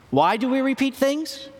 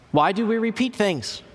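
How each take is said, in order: First: High rising prompt to the audience. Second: Said in the usual way. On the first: Shown as a demonstration. Preacher repeating the question to the congregation, high and rising. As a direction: ask "repeat" much higher, rising, wanting an answer.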